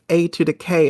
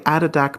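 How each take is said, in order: First: The name is said as separate letter-like parts. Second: The name is run together as one word. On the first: The speaker calls it right. "I'm pretty sure it's A to the K" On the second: The speaker calls it wrong. "I can't help myself but say Adodak because it sounds so cool"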